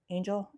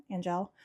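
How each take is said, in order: First: Angel said like "ain-zhel", long A; Angel pronounced "AIN-jel". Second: Angel said like "an-jel", short A; Angel pronounced "AN-jel". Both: Real, not acted.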